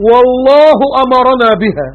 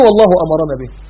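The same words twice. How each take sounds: First: Quranic recitation. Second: Said in the usual way. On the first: Acted. Preacher chanting the verse, slow and melodic. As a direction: draw the phrase out like chanted scripture. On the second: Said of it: "يعني ايه".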